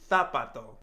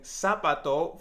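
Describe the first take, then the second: First: The z is said as a th sound. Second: The z is said as an s sound. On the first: "change the Z sound ... for the T H sound" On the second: "instead of saying zapato"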